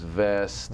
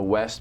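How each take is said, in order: First: It begins with a V sound instead. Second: It begins with a clear W sound.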